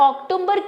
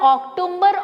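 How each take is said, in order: Both takes have the same delivery.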